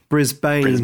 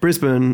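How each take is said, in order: First: Brisbane is said with an American pronunciation. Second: Brisbane is said with a local Australian pronunciation. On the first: "but as Americans say" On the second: "as we say"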